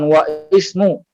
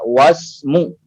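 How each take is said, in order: First: A glottal stop separates wa and ismu. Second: Wa runs straight into smu without a break. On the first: The speaker calls it wrong. "dibaca bukan wa ismu" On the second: The speaker calls it right. "akan tetapi dibaca wasmu"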